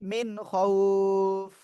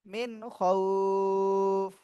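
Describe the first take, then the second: First: The last word ends abruptly on the 'f' sound. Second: The same.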